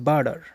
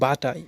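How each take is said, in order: First: It has a soft 'd' and ends with 'r'. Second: It has a 't' and ends without 'r'. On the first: "বার্ডার উচ্চারণ করা যায়" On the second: "বাটার উচ্চারণ হবে না, বাটা"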